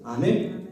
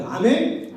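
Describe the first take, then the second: First: Said in the usual way. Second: Asks for a louder amen, calling out with a laugh. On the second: Shown as a demonstration. Pastor urging the youth group to answer louder, with a laugh. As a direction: push the call so the kids answer louder. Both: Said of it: "더 목소리 커야 돼".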